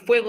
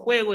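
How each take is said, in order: First: The word starts with a clear f sound. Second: The word starts with a breathy h-like sound. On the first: This is the careful standard pronunciation. The speaker calls it right. "en vez de decir fuego" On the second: This is relaxed informal speech. The speaker calls it wrong. "cambiamos sonidos, ... decimos juego"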